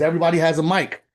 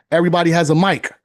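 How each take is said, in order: First: Said in the usual way. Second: Louder and faster, punching "mic" hard; emphatic repeat. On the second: Real, not acted. Motivator driving his point home to veterans, loud and quick. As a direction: hammer "Everybody has a mic" home.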